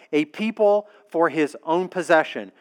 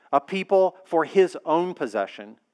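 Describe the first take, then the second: Both takes have the same delivery.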